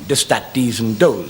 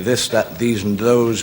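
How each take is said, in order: First: The th sounds are Irish-style t or d. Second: The th sounds are said as standard th.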